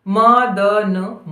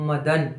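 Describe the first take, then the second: First: Slow dictation, each sound held apart; syllable by syllable. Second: Said in the usual way. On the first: Shown as a demonstration. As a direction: stretch out म, द, न one by one. Spelling a word out for dictation.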